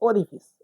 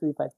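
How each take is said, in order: First: The last syllable has a short 'i' vowel. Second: The last syllable has a long 'eye' vowel. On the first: The speaker calls it right. "ओरिफिस होता है" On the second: The speaker calls it wrong. "Generally लोग उसको ओरिफाइस ओरिफाइस ओरिफाइस पढ़ते हैं ... तो गलती हो रही है"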